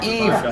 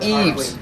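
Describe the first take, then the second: First: The name ends without an S sound. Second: The name ends with an S sound. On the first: The speaker calls it right. "Drop the S, people. It is Eve" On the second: The speaker calls it wrong. "not Eves"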